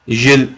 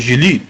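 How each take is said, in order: First: "Gilles" said as one syllable, ZHIL, with no final vowel; corrected name. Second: "Gilly" said as ZHEE-lee, two syllables, stress on the first; first try at the name. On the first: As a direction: clip "Gilles" to a single zhil, French style. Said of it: "That's better". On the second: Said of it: "How to pronounce it?". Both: Shown as a demonstration.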